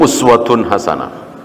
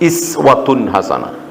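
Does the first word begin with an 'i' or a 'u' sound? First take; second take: u; i. First: The first word begins with a 'u' vowel. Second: The first word begins with an 'i' vowel. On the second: "Kadang dibaca"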